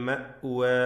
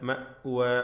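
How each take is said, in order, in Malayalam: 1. മധ്യത്തിലെ ഗ്ലോട്ടൽ സ്റ്റോപ്പ് വ്യക്തമായി ഉച്ചരിക്കുന്നു. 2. മധ്യത്തിലെ ഗ്ലോട്ടൽ സ്റ്റോപ്പ് വ്യക്തമായി ഉച്ചരിക്കുന്നു.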